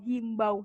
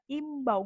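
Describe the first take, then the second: First: The word begins with an h sound. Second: The word begins with a vowel, no h. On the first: The speaker calls it wrong. "sering bilang ya himbau" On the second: The speaker calls it right. "yang benar imbau, nggak pakai H"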